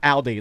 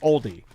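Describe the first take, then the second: First: It sounds like the car name, without an L. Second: It is said with a clear L sound. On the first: The speaker calls it wrong. "not Aldi, like the car" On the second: The speaker calls it right. "I should say it right"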